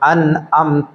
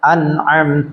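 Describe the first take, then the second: First: A glottal stop is said before amta. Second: A tight throat ain sound is said before amta. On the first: The speaker calls it wrong. "ഹംസ കൊടുത്ത് ഓതുന്ന" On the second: The speaker calls it right. "അവിടെ ഐനാണ് വരാനുള്ളത്"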